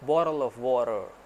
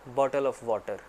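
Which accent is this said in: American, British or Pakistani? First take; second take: American; Pakistani. First: It is said in an American English accent. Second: It is said in a Pakistani English accent. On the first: "यही American accent" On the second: "Pakistani accent में हम कहते हैं"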